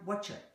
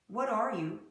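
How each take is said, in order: First: The words blend into a reduced "whatcha". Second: Each word is said fully and separately.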